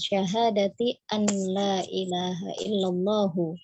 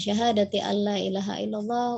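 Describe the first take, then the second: First: Illallah ends with a full final vowel. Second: Illallah stops short without a final vowel. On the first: The speaker calls it right. "Jadi kita bacanya jelas saja" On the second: The speaker calls it wrong. "itu kan di waqaf-waqaf akhirnya"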